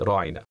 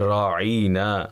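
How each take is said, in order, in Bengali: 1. শব্দটি ছোট ও সাধারণ স্বরধ্বনি দিয়ে বলা হয়। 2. শব্দটিতে একটি স্বরধ্বনি টেনে বলা হয়।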